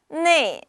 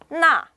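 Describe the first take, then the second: First: The vowel sounds like 'nei'. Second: The vowel sounds like 'na'. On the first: It is the everyday conversational form. "네라고 발음하는 것은요, 좀 더 일상 회화에 걸맞는" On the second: It is the textbook, dictionary form. "나라는 건 굉장히 사전적이고 교과서적인 발음입니다"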